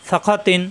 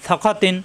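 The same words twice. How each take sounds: The two takes are said the same way.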